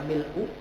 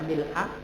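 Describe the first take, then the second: First: The word ends in a 'u' vowel. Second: The word ends in an 'a' vowel. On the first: "ada yang membaca mil'u" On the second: "Ada yang membaca mil'a"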